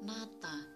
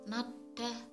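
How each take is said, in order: First: The second syllable starts with a t sound. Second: The second syllable starts with a d sound. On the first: The speaker calls it right. "tapi yang benar dibaca nata" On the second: The speaker calls it wrong. "harusnya dibaca nada"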